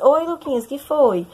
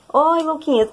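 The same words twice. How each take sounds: First: Mock composed greeting, pitched up; swallowed tears. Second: Imitating a voice choked with tears, pitched higher; tearful choked voice. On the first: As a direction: act as if nothing is wrong, hiding the crying. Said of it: "Aí eu engoli o choro". (engolindo o choro, fingindo estar bem) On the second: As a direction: say it as if holding back sobs, lightly acted. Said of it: "com uma voz embargada de choro". (voz embargada de choro, imitada)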